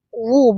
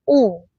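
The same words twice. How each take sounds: First: The vowel begins with rounded-lip w sound. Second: The vowel is a plain u without w. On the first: The speaker calls it right. "Waw tidak dibaca u, tapi w, u" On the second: The speaker calls it wrong. "bukan fa, u"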